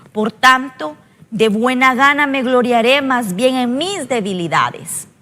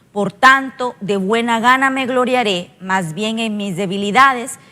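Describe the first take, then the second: The two takes are said the same way.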